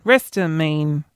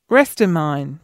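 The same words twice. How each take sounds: First: Restamine ending like "mean", drawn out; second pronunciation. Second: Restamine ending like "mine"; trying a pronunciation. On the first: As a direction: say Restamine slowly with a long "ee" at the end. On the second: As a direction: say Restamine with a long "eye" in the last syllable. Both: Real, not acted. Tries two readings of drug name.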